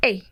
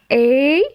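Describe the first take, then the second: First: "E" as a closed é sound; teacher models "E" with a tighter é vowel. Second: "E" as an open è sound; teacher models "E" like the è in mère. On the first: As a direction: demonstrate closed "E", like the end of assez. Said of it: "le deuxième c'est fermé". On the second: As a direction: demonstrate open "E", held loud and clear. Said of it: "le premier c'est ouvert". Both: Shown as a demonstration.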